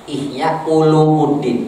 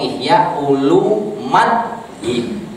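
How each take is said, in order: First: The vowel before the final syllable is u. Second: The vowel before the final syllable is a. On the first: The speaker calls it wrong. "Ihya Ulumuddin itu muskil" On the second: The speaker calls it right. "atau Ihya Ulumaddin"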